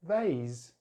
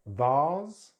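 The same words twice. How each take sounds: First: "vase" as vayz; American "vase" with ay; American pronunciation. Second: "Vase" as vahz; British "Vase" with long ah; British pronunciation. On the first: Teacher contrasts accents, "vase" said vayz. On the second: Teacher contrasts accents, "Vase" said vahz. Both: Shown as a demonstration. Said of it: "British English or American English".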